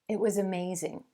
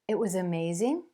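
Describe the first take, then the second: First: The pitch falls at the end. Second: The pitch rises at the end. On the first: It is a statement of fact. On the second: It is a question.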